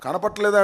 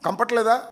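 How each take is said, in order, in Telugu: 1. మొదటి అక్షరాలు 'kana' అని పూర్తిగా ఉంటాయి. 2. మొదటి అక్షరాలు కలిసిపోయి 'kam' అని చిన్నగా పలుకుతుంది. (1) "కనపట్లేదా అనమంటే" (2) "కంపట్లేదా కంపట్లేదా అంటున్నాడు"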